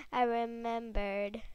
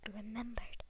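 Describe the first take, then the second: First: Said in the usual way. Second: Soft whispered repeat; whispering. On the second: Real, not acted. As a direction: whisper it to yourself.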